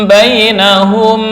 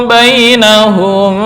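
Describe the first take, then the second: The two takes are said the same way.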